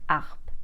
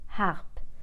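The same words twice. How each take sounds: First: The opening h sound is silent. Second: The opening h sound is slightly pronounced. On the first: The speaker calls it wrong. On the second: The speaker calls it right.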